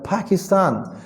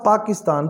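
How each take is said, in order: First: The first p has a strong puff of air. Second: The first p has no puff of air.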